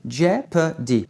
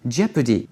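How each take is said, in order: First: "jeopardy" slowly, syllable by syllable, without o; silent O, slow. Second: "Jeopardy" at normal speed as JEP-uh-dee; reduced second syllable. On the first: Teacher breaks the word down for learners, slow "jeopardy". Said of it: "On prononce pas le O". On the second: Teacher repeats for learners, joined-up "Jeopardy" with reduced middle. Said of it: "on va réduire la deuxième syllabe". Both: Shown as a demonstration.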